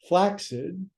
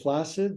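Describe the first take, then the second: First: The middle consonant is a ks sound. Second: The middle consonant is a plain s sound. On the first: The speaker calls it right. "This is flaccid. If you put two C's together, it makes an X" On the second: The speaker calls it wrong. "That's an improper pronunciation"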